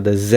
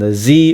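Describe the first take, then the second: First: The letter is said the Canadian way, zed. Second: The letter is said the American way, zee.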